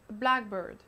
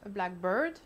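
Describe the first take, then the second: First: The stress falls on black. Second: The stress falls on bird. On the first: It names a particular species of bird. "il s'agit d'un merle" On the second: "il s'agit d'un oiseau noir"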